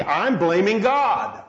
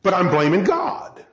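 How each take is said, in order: First: Slow, weighty "I'm blaming God"; slow emphasis. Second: Said in the usual way. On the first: Shown as a demonstration. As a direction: let each word of "blaming God" land slowly. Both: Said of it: "Subconsciously, I'm blaming God".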